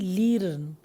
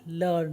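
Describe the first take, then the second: First: The vowel sounds like 'eer'. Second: The vowel sounds like 'ur'. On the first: The speaker calls it wrong. "ना कि लीर्न" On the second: The speaker calls it right. "तो वो बन गया लर्न"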